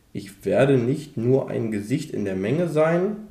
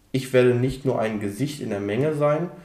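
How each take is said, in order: The two takes are said the same way.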